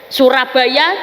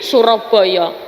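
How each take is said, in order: First: The vowels are pronounced as a. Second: The vowels are pronounced as o, East Javanese-style.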